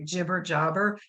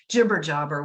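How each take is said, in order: First: The name is said slowly and clearly. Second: The name is said quickly and run together. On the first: The speaker calls it right. "just the way it sounds" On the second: The speaker calls it wrong. "I said that really fast"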